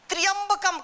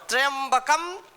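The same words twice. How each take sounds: First: The opening consonants are split by a vowel. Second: The opening consonants are joined as a cluster. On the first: The speaker calls it wrong. "कहीं कहीं उच्चारण में लोग गड़बड़ी करते हैं" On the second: The speaker calls it right. "त्र आधा जो है"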